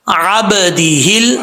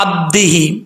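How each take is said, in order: First: عبدہل with a light echo on the baa, slow; correct qalqala. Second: عبدہ ہی with a bounced qalqala on the baa; wrong reading demo. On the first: Teacher giving the correct reading after the wrong one. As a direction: recite عبدہل slowly with proper qalqala. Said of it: "با ساکن ہے، حروف قلقلہ میں سے". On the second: Teacher showing the wrong way to students. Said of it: "اب اس کو ایسے نہیں پڑھنا". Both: Shown as a demonstration.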